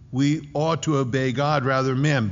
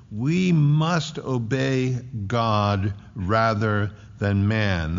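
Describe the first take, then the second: First: Said in the usual way. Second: Slow, deliberate line with "must" stressed; emphasis on MUST. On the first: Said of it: "the "ought" there". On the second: Shown as a demonstration. Preacher shows the emphasis in Peter's answer, stressed "must". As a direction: spell out each word slowly, leaning on "must". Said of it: "There's an emphasis on the word".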